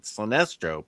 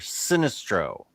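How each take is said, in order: First: The beginning does not sound like 'sinister'. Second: The beginning sounds like the word 'sinister'. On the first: "I have always pronounced it Sinestro" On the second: "but if he's sinister"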